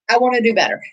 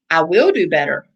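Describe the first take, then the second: First: Said in the usual way. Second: "will" pressed firm and definite; stress on will. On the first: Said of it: "It's not definite". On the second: Shown as a demonstration. Coach contrasting wishes with commitments, firm stress on will. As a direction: lean on "will" to make it a promise. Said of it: "It's definite".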